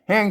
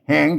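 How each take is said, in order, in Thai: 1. คำว่า "แหง" ออกเสียงเป็นเสียงต่ำ 2. คำว่า "แหง" ออกเสียงเป็นเสียงขึ้น (1) "เสียงเอก" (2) "เสียงจัตวา"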